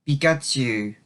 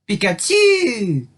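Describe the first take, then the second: First: It sounds reluctant and disappointed. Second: It sounds like confident, obvious agreement.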